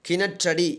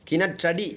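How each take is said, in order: The two takes are said the same way.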